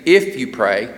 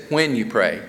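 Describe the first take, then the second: First: "If" stressed, lower pitch. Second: "When" stressed with a falling tune. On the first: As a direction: hit the word "If" lightly. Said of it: "he doesn't say". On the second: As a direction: lean on "When" firmly. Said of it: "he says". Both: Shown as a demonstration.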